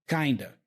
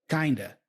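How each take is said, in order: No difference in how they are said.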